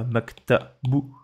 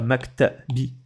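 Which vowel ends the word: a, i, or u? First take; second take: u; i. First: The word ends with a u vowel. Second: The word ends with an i vowel. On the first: "C'est pas maktabou" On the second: "C'est pas maktabi"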